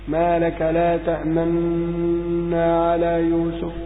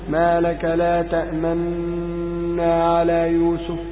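The two takes are said the same way.

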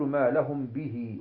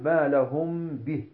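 First: The h is followed by a long i vowel. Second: The word stops on the h, no vowel. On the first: The speaker calls it wrong. "لا نقول ما لهم به ونقف" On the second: The speaker calls it right. "تحذف ياء الصلة"

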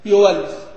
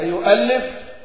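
First: A w glide replaces the glottal stop. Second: A glottal stop is heard in the middle.

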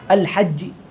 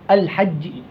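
No difference in how they are said.

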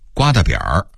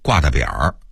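First: It is read with the standard pronunciation. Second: It is read with the Beijing tone change.

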